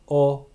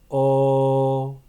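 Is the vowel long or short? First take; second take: short; long. First: The vowel is held briefly. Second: The vowel is held for longer. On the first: "first a short" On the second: "then a long version"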